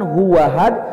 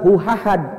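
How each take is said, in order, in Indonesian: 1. Bunyi w menyambung ke 'ahad'. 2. Bunyi h memulai 'ahad'. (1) "bukan huwahad" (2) "bukan huhahad"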